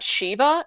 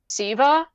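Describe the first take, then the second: First: The name begins with an 'sh' sound. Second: The name begins with a plain 's' sound. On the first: The speaker calls it right. "not Shiva" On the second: The speaker calls it wrong. "she described one of the statues as Siva"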